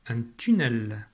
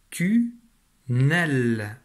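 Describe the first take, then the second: First: Said in the usual way. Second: "tunnel" split as "tu... nel", both parts held and louder; découpage en syllabes. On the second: Shown as a demonstration. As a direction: break "tunnel" into two long syllables with a pause. (« tu… nel », deux syllabes bien séparées) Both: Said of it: "il y a deux syllabes dans ce mot".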